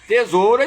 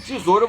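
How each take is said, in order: First: It is said in a careful, full form. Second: It is said in a relaxed, everyday form. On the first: This is the form used in writing. "Tesoura escreve" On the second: This is the form used in speech. "tesoura você fala"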